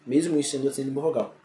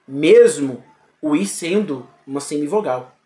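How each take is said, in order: First: Mesmo o i sendo uma semivogal, muttered softer and faster; quiet fast repeat. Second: Said in the usual way. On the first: Shown as a demonstration. Teacher quickly repeating the point to the students, much softer. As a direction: echo it quickly under your breath. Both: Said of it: "repeated explanation".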